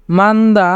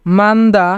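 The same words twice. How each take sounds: The two takes are said the same way.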